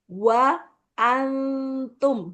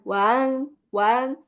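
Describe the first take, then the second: First: The words are kept apart with clear vowels. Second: The words are run together into one syllable. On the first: The speaker calls it right. "wa antum, gitu" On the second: The speaker calls it wrong. "bukan wan wan"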